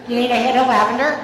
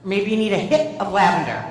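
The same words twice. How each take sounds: First: Loud, disbelieving question, rising at LAVENDER; higher, louder mock astonishment; incredulous echo. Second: Said in the usual way. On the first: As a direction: repeat it as if you can't believe it. Incredulous repeat of the offer.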